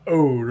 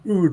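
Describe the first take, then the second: First: The vowel is a long 'oh' sound. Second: The vowel is a long 'oo' sound. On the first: The speaker calls it wrong. "I've been pronouncing it ode" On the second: The speaker calls it right. "I've been pronouncing ood wrong the entire time"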